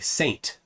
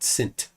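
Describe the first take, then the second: First: The vowel is a long A sound. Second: The vowel is a short I sound. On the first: The speaker calls it right. "we pronounce the long A" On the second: The speaker calls it wrong. "not Sint"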